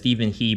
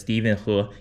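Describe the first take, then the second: First: The surname is said in an anglicized way. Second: The surname is said in a Chinese way. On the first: This is how most people assume it is said. The speaker calls it wrong. "I know you guys think it's pronounced as" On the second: This is how the name is really said. The speaker calls it right. "but it's actually pronounced as"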